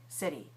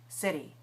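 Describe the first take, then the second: First: It has an American accent with a tapped t. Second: The same.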